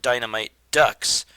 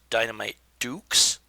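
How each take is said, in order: First: The last word sounds like 'ducks', with a short vowel. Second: The last word sounds like 'dukes', with a long vowel. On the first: The name refers to the duck heroes. "I want to call it Dynamite Ducks" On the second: The name refers to putting up your fists. "which might mean it's pronounced Dynamite Dukes"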